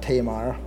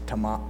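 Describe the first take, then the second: First: The stress is on the first syllable. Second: The stress is on the second syllable. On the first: The speaker calls it wrong. "I used to always pronounce that Tamar" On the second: The speaker calls it right. "The emphasis is on the Mar, not Te"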